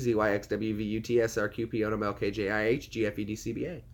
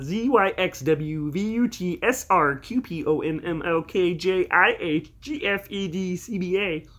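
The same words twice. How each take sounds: First: It is said in his normal voice. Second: It is said in a Kermit the Frog voice.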